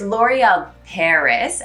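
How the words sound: Said with an American accent and a final S. The speaker calls it wrong.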